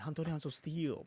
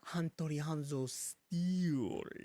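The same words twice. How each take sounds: First: The word steel is said plainly. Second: The word steel is strongly emphasized.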